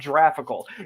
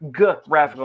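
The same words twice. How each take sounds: First: The word begins with a soft j sound. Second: The word begins with a hard g sound. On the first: The speaker calls it wrong. "not graphical" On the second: The speaker calls it right. "It is graphical"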